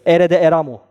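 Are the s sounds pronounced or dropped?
dropped. The s sounds are dropped entirely. This is how locals in the south actually say it. "Bana şu şekilde soruyor. S harfini söylemiyorlar"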